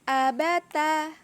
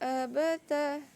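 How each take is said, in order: First: The vowels are said with the mouth fully open. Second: The vowels are said with the mouth half open. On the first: The speaker calls it right. "bacaan yang benar untuk semuanya ini abata" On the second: The speaker calls it wrong. "Contoh yang salah atau bacaan yang miring"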